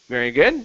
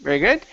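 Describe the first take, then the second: Both takes have the same delivery.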